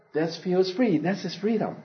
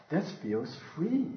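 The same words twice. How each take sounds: First: Said in the usual way. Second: Softer and slower, in awe; hushed wonder. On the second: Retold or imitated. Baby bird discovering flight, hushed and slow. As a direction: breathe the line out in wonder. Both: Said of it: "it realizes".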